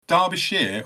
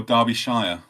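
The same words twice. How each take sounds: First: Derbyshire ending in "sheer"; last syllable as SHEER. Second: Derbyshire ending in "shy-er"; last syllable as SHIRE. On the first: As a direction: say Derbyshire as DAR-bee-sheer. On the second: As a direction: say Derbyshire as DAR-bee-SHY-er. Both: Shown as a demonstration. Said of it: "I would say Shire as well".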